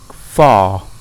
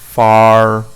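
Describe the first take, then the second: First: The final R sound is dropped entirely. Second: The final R sound is clearly pronounced. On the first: "but in received pronunciation it's far" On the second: "Some people pronounce the R at the end like far"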